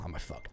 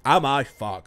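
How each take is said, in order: First: Dry undertone, voice dropped low and soft; muttered aside. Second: Louder, mock-indignant retort; punchline repeat. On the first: Streamer mutters a dry joke at himself, in a soft undertone. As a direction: mumble it to yourself, half under the breath. Jokes about being a model. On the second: Streamer repeats his joke to the viewers, louder and mock-indignant. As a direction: throw the punchline out to the chat. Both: Real, not acted.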